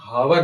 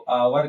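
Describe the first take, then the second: First: The word begins with an h sound. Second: The word begins with a vowel sound. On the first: The speaker calls it wrong. "इसको हम हावर नहीं कहते" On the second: The speaker calls it right. "इसको आवर कहते हैं"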